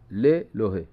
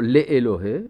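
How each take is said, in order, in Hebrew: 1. האלף שותק ואינו נהגה. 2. האלף נהגה כתנועה נפרדת. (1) "לא מבטאים את האלף. האלף שותקת" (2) "לא לאלוהי"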